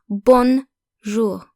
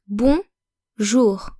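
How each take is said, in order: First: The N is pronounced as a full consonant. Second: The vowel is nasal with no N consonant. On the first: The speaker calls it wrong. "not bonjour" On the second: The speaker calls it right. "the N in bonjour is not pronounced like a consonant"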